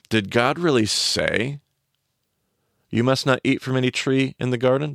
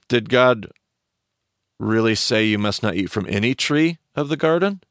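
First: The word say is stressed. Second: The word say is not stressed.

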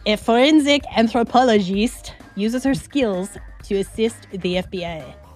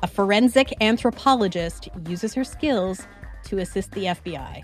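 First: It is read in a put-on funny accent. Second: It is read in the speaker's normal accent.

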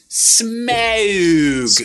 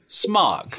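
First: The vowel is drawn out like 'ow'. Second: The vowel is short, like in smog. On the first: "The emphasis has really hit" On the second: "it was what covers our beautiful Los Angeles out here"

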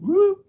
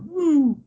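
First: The pitch rises across the sound. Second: The pitch falls across the sound. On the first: "rising or falling in frequency" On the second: "rising or falling in frequency"

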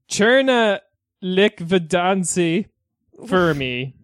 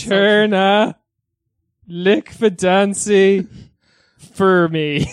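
First: It is said at a normal speed. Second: It is said more slowly.

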